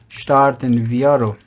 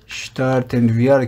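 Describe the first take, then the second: First: شتارتن ویا read slowly, word by word, falling at the end; slow careful reading. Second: Said in the usual way. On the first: Shown as a demonstration. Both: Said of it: "شتارتن ویا رو کلیک بکنیم".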